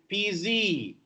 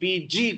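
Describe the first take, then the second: First: The last letter ends in a z sound. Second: The last letter ends in a j sound. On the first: The speaker calls it wrong. "Telugus have a problem... they say P Z" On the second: The speaker calls it right. "Instead, encourage them to P G"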